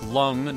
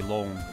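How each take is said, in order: First: The vowel is a short uh sound. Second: The vowel is a long o sound. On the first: The speaker calls it wrong. "Not like lung" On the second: The speaker calls it right. "pronounced with a long O"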